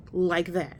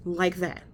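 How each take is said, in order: Both takes have the same delivery.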